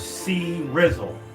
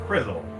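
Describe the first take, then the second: First: The C is said as a separate letter. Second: The C is blended into one word. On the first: The speaker calls it right. "That is for C Rizzle" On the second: The speaker calls it wrong. "not Crizzle"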